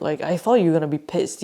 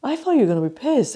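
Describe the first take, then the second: First: Said in the usual way. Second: Higher, rushed baffled thought; quick mock bewilderment; puzzled inner thought. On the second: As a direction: race through it, mimicking someone privately baffled. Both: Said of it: "she was going in her head like".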